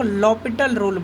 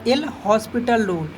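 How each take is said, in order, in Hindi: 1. यह नाम बिना 's' ध्वनि के बोला जाता है। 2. यह नाम 's' ध्वनि के साथ बोला जाता है।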